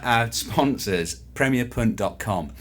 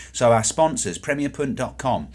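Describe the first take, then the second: First: Slowed down. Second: Rushing. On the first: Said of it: "You're better". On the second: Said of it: "I think you need to slow down here". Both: Real, not acted.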